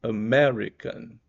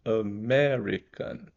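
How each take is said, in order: First: "American" said slowly, with AME stressed and loud; slow teacher model, stress on AME; stress on Amé. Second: Said in the usual way. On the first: Shown as a demonstration. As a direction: lean hard on the AME of "American". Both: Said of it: "é o acentuado".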